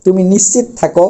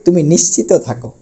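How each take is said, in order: First: নিশ্চিত said "nishchit", no vowel before থাকো; wrong pronunciation. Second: নিশ্চিত said "nishchito" before থাকো; correct final o. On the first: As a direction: drop the final o of নিশ্চিত. (নিশ্চিত শেষে ও ছাড়া, ভুল উচ্চারণে) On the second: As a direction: sound the o ending of নিশ্চিত. (নিশ্চিত শেষে ও-কার দিয়ে) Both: Shown as a demonstration. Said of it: "এটা ভুল".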